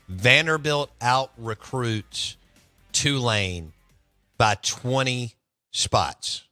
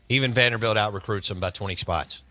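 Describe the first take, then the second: First: It is said very slowly. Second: It is said at normal speed.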